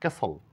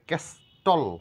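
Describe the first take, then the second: First: The t sound is left out of the word. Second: The t sound is pronounced in the word. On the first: The speaker calls it right. "এখানে টি এর কোনো sound নেই" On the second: The speaker calls it wrong. "এখানে ক্যাস্টল বলা যাবে না"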